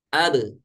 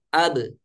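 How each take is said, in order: First: The final b ends in a short light bounce. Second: The same.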